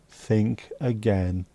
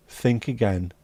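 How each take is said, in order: First: Slow, drawn-out menacing warning; menacing threat. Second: Said in the usual way. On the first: Pretend. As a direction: lean in slow like a heavy.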